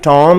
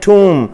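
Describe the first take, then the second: First: The vowel sounds like 'aw' in 'saw'. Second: The vowel sounds like 'oo' in 'room'. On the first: The speaker calls it wrong. "ये टॉम नहीं है" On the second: The speaker calls it right. "Pronunciation सुन लें"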